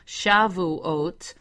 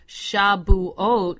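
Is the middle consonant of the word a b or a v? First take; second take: v; b. First: The middle consonant is a v sound. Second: The middle consonant is a b sound. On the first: This follows the modern Hebrew sound. "versus the modern Hebrew, which is a V" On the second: This follows the ancient Hebrew sound. "why I pronounce the word Shavuot with the letter B"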